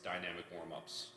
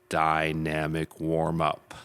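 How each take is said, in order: First: It is said at normal volume. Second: It is said loudly.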